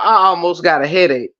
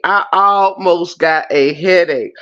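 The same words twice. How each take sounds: First: Said in the usual way. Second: Weighty, spaced-out delivery. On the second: Real, not acted. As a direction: stretch each word for comic weight. Repeats it slowly for comic emphasis.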